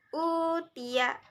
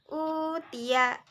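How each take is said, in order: Both takes have the same delivery.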